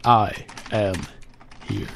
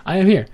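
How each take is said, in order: First: Said in the usual way. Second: Loud, high call of I am here; I am here shouted up high. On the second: Real, not acted. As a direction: call it out so the chat hears. Calling out to the live chat.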